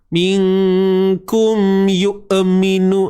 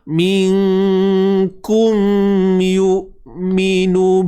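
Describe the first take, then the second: First: The glottal stop is released with an extra sound. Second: The glottal stop is held with no extra sound. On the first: The speaker calls it wrong. "ah pula buat macam tu kan. So tak maulah" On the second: The speaker calls it right. "tahan je macam biasa"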